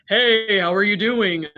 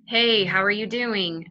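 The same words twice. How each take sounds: First: Louder, brighter voice with forward tongue; tongue forward, sound like someone else. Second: Slow, tongue pulled back; same pitch, darker slower take. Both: Shown as a demonstration. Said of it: "I sound like a completely different person".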